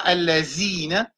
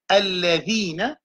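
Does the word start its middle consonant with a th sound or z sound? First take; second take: z sound; th sound. First: The consonant is a plain z sound. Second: The consonant is a voiced th, as in the. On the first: The speaker calls it wrong. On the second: The speaker calls it right.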